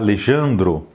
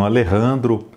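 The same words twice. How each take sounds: First: The name is pronounced with Portuguese sounds. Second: The name is pronounced with Spanish sounds. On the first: "o Alejandro é um escritor brasileiro, então eu deveria pronunciar" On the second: "essa pronúncia espanhola"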